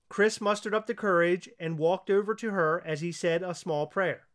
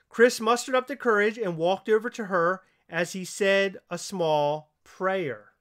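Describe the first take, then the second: First: It is read at a faster pace. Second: It is read at a slower pace.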